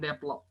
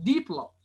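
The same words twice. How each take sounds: First: The D sound is short. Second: The D sound is stretched. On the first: The speaker calls it wrong. "bukan develop" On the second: The speaker calls it right. "D-nya itu harus di stretching"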